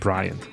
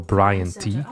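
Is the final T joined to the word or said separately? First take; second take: joined; separately. First: The final T is joined onto the last syllable. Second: The final T is said as a separate letter. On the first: The speaker calls it right. "It's like" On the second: The speaker calls it wrong. "You don't go"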